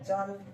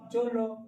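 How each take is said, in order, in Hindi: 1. एक अक्षर में छोटा अ है, और यह ल पर खत्म होता है। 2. दोनों अक्षरों में ओ स्वर है, इसलिए शब्द स्वर पर खत्म होता है। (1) "बुलवाते हैं चल" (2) "चोलो होगा"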